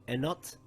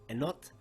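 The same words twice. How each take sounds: The two takes are said the same way.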